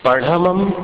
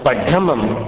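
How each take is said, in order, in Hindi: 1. बीच का व्यंजन फ़्लैप वाला ढ़ है। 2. बीच का व्यंजन सादा ढ स्टॉप है। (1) "गलत उच्चारण था" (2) "ये शुद्ध उच्चारण था, क्योंकि ढ के नीचे वहां बिंदी तो नहीं डली"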